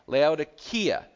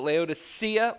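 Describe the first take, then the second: First: The C is pronounced as a K sound. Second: The C is pronounced as an S sound. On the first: The speaker calls it right. "It's a K" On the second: The speaker calls it wrong. "People pronounce it Laodicea, like that C in there is an S"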